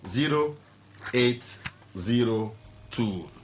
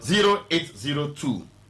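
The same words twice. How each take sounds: First: It is said very slowly. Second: It is said at a normal speed.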